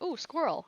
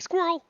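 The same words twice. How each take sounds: First: Higher, delighted little ooh; mock excited. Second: Sudden loud, high distracted blurt; dog from Up. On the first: Gamer imitating herself spotting squirrels, mildly excited. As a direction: coo at the squirrel like a kid. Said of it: "I probably sounded like the". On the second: Gamer mocking herself as the Up dog, loud high blurt. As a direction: yelp it like the easily distracted dog. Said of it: "I sound like the dog".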